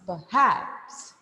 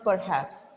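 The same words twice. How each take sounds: First: The stress is on the second syllable. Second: The stress is on the first syllable. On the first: The speaker calls it right. "Then you should pitch at this part. Hats" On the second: The speaker calls it wrong. "It is not perhaps"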